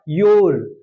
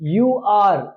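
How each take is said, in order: First: It is said as one contracted syllable. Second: It is said as two full words.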